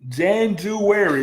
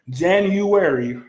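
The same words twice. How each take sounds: First: The word has an altered, nonstandard pronunciation. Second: The word has its usual standard pronunciation. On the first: The speaker calls it wrong. "is what she says" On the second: The speaker calls it right. "instead of saying January"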